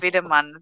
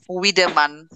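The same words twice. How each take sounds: First: The first sound is a V. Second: The first sound is an English W. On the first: The speaker calls it right. "it's Wiedemann" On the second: The speaker calls it wrong. "The W they, they call them"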